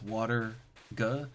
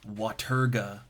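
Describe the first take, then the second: First: It is said as two separate parts. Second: It is said as one joined word. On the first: "because it's water ga" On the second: "pronounce it as one word"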